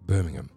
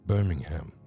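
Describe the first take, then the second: First: It is said in an English accent. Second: It is said in a non-English accent.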